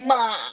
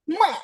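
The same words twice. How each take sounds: First: It is said with the Mandarin third tone. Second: It is said with the Mandarin fourth tone. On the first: "yang ketiga itu disebutnya pisan sheng" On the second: "Nada keempat kita lafalkan ini"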